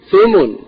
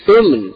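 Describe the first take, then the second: First: "ثمن" as thumn, no vowel after the m; sukun on mim. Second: "ثمن" as thumun, with u after the m; damma on mim. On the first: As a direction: run m straight into n in "ثمن". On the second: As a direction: give "ثمن" two syllables, short u in both. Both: Shown as a demonstration. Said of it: "ضم الميم وسكونها".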